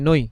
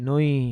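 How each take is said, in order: First: The final vowel is cut short abruptly. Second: The final vowel is drawn out fully. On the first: The speaker calls it right. "রস্বইতে থেমে যাচ্ছি" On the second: The speaker calls it wrong. "আমি normally যদি বলি"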